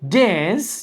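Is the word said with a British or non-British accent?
non-British. The word is said in a non-British accent. "instead of uh"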